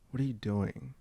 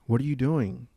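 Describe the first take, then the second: First: The question sounds disappointed and reproachful. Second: The question sounds curious and interested. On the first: The speaker disapproves of what the other person is doing. "sounds like, come on, what are you, you know, like disappointed" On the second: The speaker genuinely wants to know. "That sounds curious"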